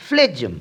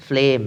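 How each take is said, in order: First: ফ্লেজম with the G sounded like "j"; wrong ফ্লেজম, G heard; wrong pronunciation. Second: ফ্লেম like "flem" with a silent G; correct pronunciation. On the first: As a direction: mistaken ফ্লেজম. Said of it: "কিন্তু এটি সঠিক নয়". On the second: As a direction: say the right ফ্লেম with no G. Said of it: "এখানে জি silent". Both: Shown as a demonstration.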